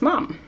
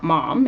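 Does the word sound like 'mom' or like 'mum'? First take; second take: mum; mom. First: The word is said like 'mum'. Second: The word is said like 'mom'. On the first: The speaker calls it right. "mum should be spelt mum, M U M, because the way you say it" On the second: The speaker calls it wrong. "It's not mom"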